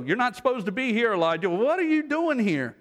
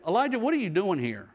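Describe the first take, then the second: First: High, pressing question to someone out of place; pointed disbelief. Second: Said in the usual way. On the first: Acted. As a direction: imitate an incredulous challenge, pitched up. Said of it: "As though". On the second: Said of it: "God said to him".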